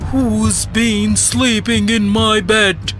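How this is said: It is said in a deep, growly voice. "he roared in his deep, growly voice"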